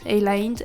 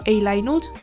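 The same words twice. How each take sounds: First: The ending is shortened to nd. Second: The ending is said in full as nud. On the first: The speaker calls it right. "we say nd" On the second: The speaker calls it wrong. "We don't say nude"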